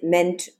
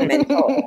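First: The word is said with an English accent. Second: The word is said with a French accent.

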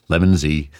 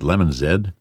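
First: The letter Z is said a non-Canadian way. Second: The letter Z is said the Canadian way. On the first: "but I've fallen into the habit" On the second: "I'm Canadian. I should pronounce it Lemon Z"

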